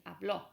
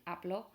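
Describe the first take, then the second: First: "habló" said as ab-LO, final syllable stressed; past-tense "habló", weight on the ending. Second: "habló" said as AB-lo, first syllable stressed; present-tense AB-lo for "habló", no accent on the o. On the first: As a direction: push the accented o of "habló". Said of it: "you do need the accent". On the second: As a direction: keep the closing o of "habló" unstressed. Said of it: "you don't need the accent". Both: Shown as a demonstration.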